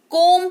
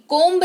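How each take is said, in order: First: कोम with a silent b, ending on m; correct pronunciation. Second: कोम्ब with the b sounded at the end; wrong pronunciation. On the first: Teacher showing students the right way: कोम, b silent. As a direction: say कोम, no b at the end. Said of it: "कोम्ब नहीं, कोम पढ़ेंगे". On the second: Teacher showing students the wrong way: कोम्ब with a final b. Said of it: "कोम्ब नहीं". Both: Shown as a demonstration.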